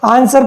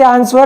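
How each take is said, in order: First: No 'w' sound is heard after the s. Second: A 'w' sound is heard after the s. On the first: The speaker calls it right. "आंसर पढ़ते हैं" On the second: The speaker calls it wrong. "अब इसे आंसर नहीं पढ़ते"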